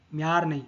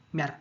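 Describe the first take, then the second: First: म्यार with a long, stretched vowel; म्यार dragged long, then dismissed; drawn-out wrong reading. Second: म्यार as one quick, short syllable; short, rapid म्यार; quick reading. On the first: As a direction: stretch म्यार out as the mistake to avoid. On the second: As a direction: say म्यार fast with a short vowel. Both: Shown as a demonstration. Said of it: "तेज पढ़ना है".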